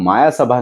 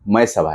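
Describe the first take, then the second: First: The first word has two syllables, maa-yaa. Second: The first word has one syllable, may. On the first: The speaker calls it wrong. "इस movie का नाम माया सभा नहीं" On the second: The speaker calls it right. "मय सभा है"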